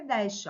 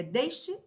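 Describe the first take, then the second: First: "deste" with an open E, "DÉS-te". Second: "deste" with a closed E, "DÊS-te". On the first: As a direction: say "deste" with a wide é. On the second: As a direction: say "deste" with a narrow ê. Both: Shown as a demonstration. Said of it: "Pronúncias diferentes".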